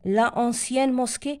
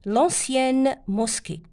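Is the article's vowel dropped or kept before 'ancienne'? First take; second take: kept; dropped. First: The article vowel is kept: la ancienne. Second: The article vowel is dropped: l'ancienne. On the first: The speaker calls it wrong. "لا نكتبها" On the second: The speaker calls it right. "هكذا تجي"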